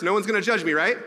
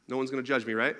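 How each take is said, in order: First: Louder and higher, "judge" leaned on hard, begging the room to agree; asking the audience for reassurance. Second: Said in the usual way. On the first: Real, not acted. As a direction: plead with the crowd, with a rise on "right". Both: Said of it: "I need reassurance".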